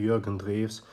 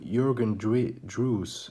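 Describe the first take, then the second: First: The name is said with German pronunciation. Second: The name is said with English pronunciation. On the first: "it's a German way to pronounce it" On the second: "I guess would be the English pronunciation"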